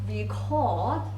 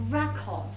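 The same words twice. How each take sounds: First: The stress is on the second syllable. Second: The stress is on the first syllable.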